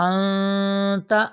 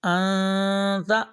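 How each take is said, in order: No difference in how they are said.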